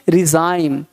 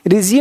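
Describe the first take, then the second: First: The last syllable sounds like 'zime'. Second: The last syllable sounds like 'zeem'. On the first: The speaker calls it right. "यहाँ पे जाइम पढ़ेंगे" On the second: The speaker calls it wrong. "रिजीम नहीं"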